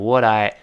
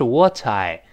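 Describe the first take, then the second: First: The t is voiced and linked to I. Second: The t is clear and not linked. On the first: "读得快了声带震动就变成what I" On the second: "本来应该是what I"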